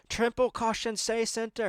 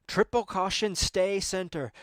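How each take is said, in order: First: The same note pushed higher and more urgent; insistent co-driver call. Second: Measured call of the rally notes, lightly mimicked; co-driver call. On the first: Retold or imitated. Co-driver repeating notes to Sammy, more insistent. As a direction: press it harder as he ignores you. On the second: Co-driver calling notes to Sammy, calm. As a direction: read the pace note like a calm co-driver. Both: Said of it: "this guy, he's like".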